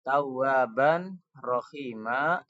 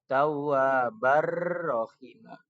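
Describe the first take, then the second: First: The n is pronounced before the next word. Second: The n merges into the following r. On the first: "awalnya begitu" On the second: "tanwinnya jadi masuk ke huruf ro"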